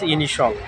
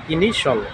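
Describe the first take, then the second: First: The ending is said as one syllable, shul. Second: The ending is said as one syllable, shul.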